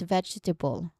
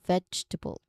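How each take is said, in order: First: The middle vowel is kept, giving four syllables. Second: The middle vowel is dropped, giving three syllables. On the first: "But in its full form, it's vegetable" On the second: "if we try to remove the schwa sound, which is in the middle"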